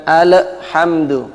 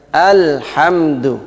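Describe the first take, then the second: First: Alhamdu with an echoing bounce after the l; wrong bounced al. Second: Alhamdu said slowly with a clean unbounced l; correct al. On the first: Teacher shows the incorrect alhamdu after the right one. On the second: Teacher contrasts the right Alhamdu with the wrong one. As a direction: say Alhamdu smoothly, no echo. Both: Shown as a demonstration. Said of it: "bukan alhamdu".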